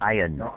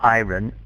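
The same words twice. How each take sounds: First: No R sound is pronounced in the word. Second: An R sound is pronounced in the word. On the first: The speaker calls it right. "we don't say the R" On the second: The speaker calls it wrong. "Not iron"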